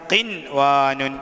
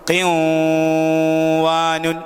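First: The n sound is pronounced clearly before w. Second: The n sound merges into the following w. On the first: The speaker calls it right. "നൂനിനെ വെളിവാക്കി ഉച്ചരിക്കണം" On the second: The speaker calls it wrong. "അങ്ങനെ വായിക്കൂല"

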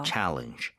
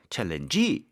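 First: The stress is on the first syllable. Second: The stress is on the last syllable. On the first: The speaker calls it right. "강세가 앞에 있습니다" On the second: The speaker calls it wrong. "마지막에 강세가 안 붙어요... challenge 이렇게 될 일이 없습니다"

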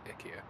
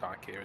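First: It is said with a Swedish-style pronunciation. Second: It is said with an English-style pronunciation. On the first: The speaker calls it right. "that's how the Swedish pronounce it" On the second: The speaker calls it wrong. "it's not pronounced IKEA"

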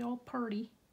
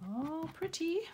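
First: Pretty is said Southern style, sounding like purdy. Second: Pretty is said the standard way, with a t.

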